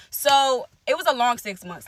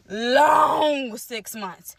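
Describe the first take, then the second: First: Said in the usual way. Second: "long six months" stretched very slowly with a crack in the voice; tearful drawn-out repeat. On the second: Real, not acted. Recalling the hard months to viewers, slow and tearful. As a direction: hold back tears as you drag it out.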